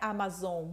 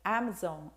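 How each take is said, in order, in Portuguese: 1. As vogais soam como português brasileiro. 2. As vogais soam como inglês americano. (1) "a loja da Amazon não é amazon ponto com" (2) "é Amazon, Amazon ... é outra forma de falar o A"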